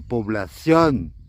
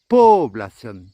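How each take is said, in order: First: The stress is on the last syllable. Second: The stress is on the first syllable. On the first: "il y a un accent sur le dernier O, donc c'est población" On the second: "s'il y avait un accent sur le premier O, eh bien on dirait población"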